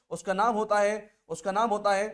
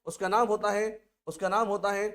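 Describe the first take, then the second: No difference in how they are said.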